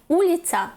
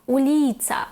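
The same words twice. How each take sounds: First: The stress is not on the middle syllable. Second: The stress is on the middle syllable. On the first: The speaker calls it wrong. "не уліця, як би нам хотіли сказати" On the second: The speaker calls it right. "наголос стабільний і падає на другий склад з кінця"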